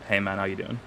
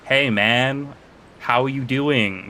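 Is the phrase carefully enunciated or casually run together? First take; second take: casual; careful. First: The words are casually reduced and run together. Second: Each word is pronounced carefully and distinctly. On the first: It is the speaker's usual way of talking. "Instead of like" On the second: It is adjusted for American or Canadian listeners. "I'll like enunciate my words like"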